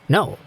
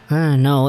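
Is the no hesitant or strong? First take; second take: strong; hesitant. First: It is said firmly and strongly. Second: It is said hesitantly and weakly.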